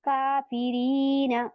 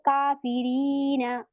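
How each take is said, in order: First: The word ends with a short final vowel. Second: The same.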